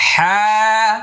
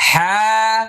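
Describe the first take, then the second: Both takes have the same delivery.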